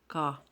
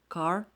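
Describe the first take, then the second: First: The final 'r' sound is dropped. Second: The final 'r' sound is pronounced.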